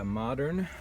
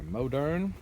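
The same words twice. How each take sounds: First: "Modern" as MAH-dern, slowly; short-o pronunciation. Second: "Modern" as MOH-dern, slowly; long-o pronunciation. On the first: Farmer naming who makes the Sunshine mower, "Modern" said MAH-dern. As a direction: say "Modern" with an open ah, MAH-durn. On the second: Farmer offering the brand's other name, "Modern" said MOH-dern. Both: Shown as a demonstration. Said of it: "I've heard it pronounced both ways".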